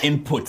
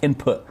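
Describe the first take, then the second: First: The T sound is clearly pronounced. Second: The T sound is left silent. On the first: The speaker calls it wrong. "as we Zambians would pronounce it" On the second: The speaker calls it right. "I know the T is silent"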